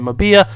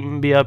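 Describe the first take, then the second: First: A vowel is heard right after the M. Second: The name starts with a bare M sound. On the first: This is how other people pronounce it. "people say Mabia" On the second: This is the speaker's own pronunciation. "I say Mbia"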